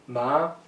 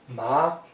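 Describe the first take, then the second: First: The pitch rises from middle to high. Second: The same.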